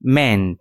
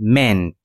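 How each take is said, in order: First: The vowel is a short e sound. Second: The vowel is a short e sound.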